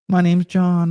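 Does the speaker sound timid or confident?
timid. It is said timidly and hesitantly.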